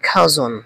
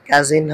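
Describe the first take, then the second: First: The word is said like 'khajon'. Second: The word is said like 'kajin'. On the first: The speaker calls it right. "এটার উচ্চারণটা হবে খাজন" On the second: The speaker calls it wrong. "কাজিন হবে না"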